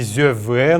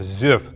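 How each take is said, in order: First: An extra vowel sound follows the final consonant. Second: The word ends sharply on its final consonant. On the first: The speaker calls it wrong. "Не «зёвэ» нужно произносить" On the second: The speaker calls it right. "а именно «зёв»"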